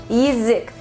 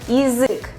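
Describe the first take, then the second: Both takes have the same delivery.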